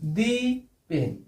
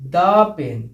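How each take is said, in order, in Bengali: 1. 'The' উচ্চারিত হয় লম্বা 'ee' স্বরধ্বনি দিয়ে। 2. 'The' উচ্চারিত হয় ছোট 'uh' স্বরধ্বনি দিয়ে। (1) "ভুল উচ্চারণ।" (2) "তাহলে এটা কি হবে?"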